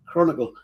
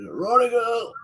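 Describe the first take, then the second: First: Said in the usual way. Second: High, drawn-out street call; imitated vendor's cry. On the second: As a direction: sing it out high like a paper seller. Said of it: "the way the bloke shouted".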